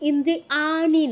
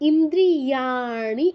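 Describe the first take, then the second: First: Ri and ani are said without a glide. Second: A y glide links ri to ani. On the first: The speaker calls it wrong. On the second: The speaker calls it right.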